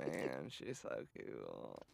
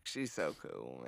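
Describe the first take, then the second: First: Much lower and softer, dragged out slowly; low, slow drawn-out gush. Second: Said in the usual way. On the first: Acted. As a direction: drop deep and quiet, drawl it. Gushing about Jeanette, second take.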